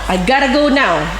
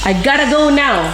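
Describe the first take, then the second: First: Got to is run together as gotta. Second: The same.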